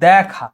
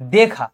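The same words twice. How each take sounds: First: The first vowel is open, like 'a' in cat. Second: The first vowel is a plain 'e' sound. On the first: The speaker calls it right. "এটা উচ্চারণ হয়ে যাচ্ছে দেখা" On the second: The speaker calls it wrong. "Not দেখা"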